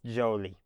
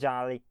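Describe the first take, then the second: First: The first vowel is a long 'oh' sound. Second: The first vowel is a short 'ah' sound. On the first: The speaker calls it right. "it's Jolie" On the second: The speaker calls it wrong. "it's not Jolly"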